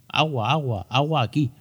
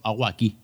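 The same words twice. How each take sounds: First: Lightly voiced toddler, higher and insistent; toddler asking for water. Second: Said in the usual way. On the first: Father imitating his toddler son, a touch higher and insistent. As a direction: play the little boy demanding his water. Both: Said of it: "en nuestro caso dicen mucho".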